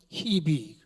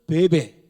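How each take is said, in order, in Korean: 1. 이 이름은 hi-bi로 발음해요. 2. 이 이름은 be-be로 발음해요. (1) "미국 사람들은 히비 그래요" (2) "우리 한국 사람들은 베베"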